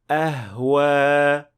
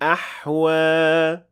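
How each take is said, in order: First: The h is a light, plain breathy sound. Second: The h is a deep, tight throat sound. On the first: The speaker calls it wrong. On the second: The speaker calls it right.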